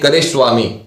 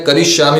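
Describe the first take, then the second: First: The middle sounds are 're swa', split apart. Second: The middle sounds are 'rishya', as one word. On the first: The speaker calls it wrong. "आप बोल दोगे करे स्वामी, तो वो गलत हो जाएगा" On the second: The speaker calls it right. "हम आपको बताते हैं करिष्यामि"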